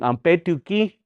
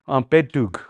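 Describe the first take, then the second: First: The word ends with a full final syllable. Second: The word is cut short without its final vowel. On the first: This is the older, longer form. "It's like saying ampetuki" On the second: This is the local slang form. "I used to say ampetug"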